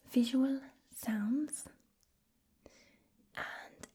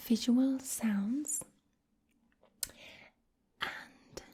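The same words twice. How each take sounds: The two takes are said the same way.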